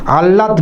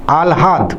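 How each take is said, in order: First: আহ্লাদ said the way it is spelt, "আহলাদ", with h before l; the wrong way, আহ্লাদ read letter by letter as "আহলাদ"; wrong pronunciation. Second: আহ্লাদ said as "আল্হাদ", with the ল sounded before the হ; correct pronunciation. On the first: Teacher warning students off the wrong reading of আহ্লাদ, spelt-out "আহলাদ". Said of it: "আহ্লাদ নয় কিন্তু". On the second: Teacher showing students the right way to say আহ্লাদ, clearly as "আলহাদ". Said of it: "আহ্লাদ উচ্চারণটা". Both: Shown as a demonstration.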